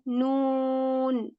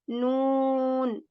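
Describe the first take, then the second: The two takes are said the same way.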